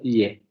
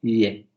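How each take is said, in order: The two takes are said the same way.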